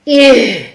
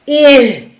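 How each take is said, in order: No difference in how they are said.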